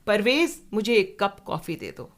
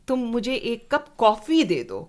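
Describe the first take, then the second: First: The name at the start is stressed. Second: The word for coffee is stressed. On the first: This person should give it, not someone else. "तो परवेज तुम दे दो, अचला नहीं।" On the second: Coffee is wanted, not tea. "Coffee ही देना, चाय मत देना।"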